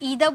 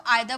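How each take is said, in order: First: The first vowel sounds like 'ee'. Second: The first vowel sounds like 'eye'. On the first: "इधर बोल सकते हो" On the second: "आइदर बोल सकते हो"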